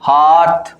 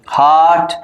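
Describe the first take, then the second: The two takes are said the same way.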